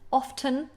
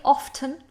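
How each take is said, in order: First: The T sound is clearly pronounced. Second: The T sound is clearly pronounced.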